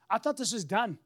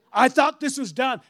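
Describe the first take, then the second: First: Said in the usual way. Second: The same line again, louder, with a laugh; louder exasperated repeat. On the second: Retold or imitated. Preacher reliving the dealer asking for more paperwork, louder laughing disbelief. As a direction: let the disbelief burst out.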